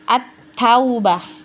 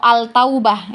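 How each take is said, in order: First: The l sound merges into a doubled t. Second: The article's l sound is clearly pronounced. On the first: The speaker calls it right. "langsung melebur ke huruf berikutnya" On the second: The speaker calls it wrong. "itu nggak enak ya"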